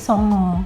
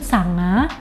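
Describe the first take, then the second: First: The vowels are pronounced as o. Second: The vowels are pronounced as a.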